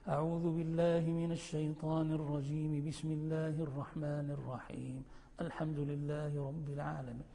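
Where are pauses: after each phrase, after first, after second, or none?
after second. First two phrases joined; pause after the second. "وتصل بسم الله بالتعوذ وتقف"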